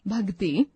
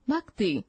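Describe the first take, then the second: First: भक्ति with g, bhagti; wrong pronunciation. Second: Said in the usual way. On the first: Shown as a demonstration. Teacher reading the wrong form, g for k. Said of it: "अशुद्ध शब्द". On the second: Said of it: "शुद्ध शब्द".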